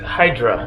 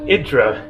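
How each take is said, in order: First: The name is said the English way. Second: The name is said the Greek way.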